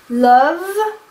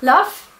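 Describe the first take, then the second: First: The final consonant is voiced, like a V. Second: The final consonant is voiceless, like an F. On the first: "voiced and devoiced sounds" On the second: "they would just devoice everything"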